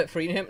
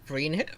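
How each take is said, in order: First: Laughing through the question. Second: Said in the usual way. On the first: Real, not acted. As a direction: giggle while asking.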